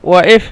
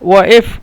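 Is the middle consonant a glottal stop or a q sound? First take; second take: glottal stop; glottal stop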